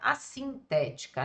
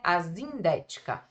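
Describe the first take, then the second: First: The consonant after the first vowel sounds like s. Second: The consonant after the first vowel sounds like z. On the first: The speaker calls it right. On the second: The speaker calls it wrong.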